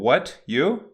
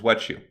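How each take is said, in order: First: The T and Y sounds stay separate. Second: The T and Y merge into ch.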